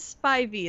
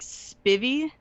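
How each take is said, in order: First: The first syllable has a long 'eye' vowel. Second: The first syllable has a short 'i' vowel. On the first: The speaker calls it right. "That is the correct way to say it" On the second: The speaker calls it wrong. "say it like Spivvy"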